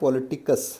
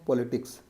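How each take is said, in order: First: A vowel is heard between k and s. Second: The k and s are joined without a vowel. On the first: This is the title of the work itself. "इसकी रचना थी पॉलिटिकस" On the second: This is how people commonly say it. "आमतौर पर लोग कहते हैं पॉलिटिक्स"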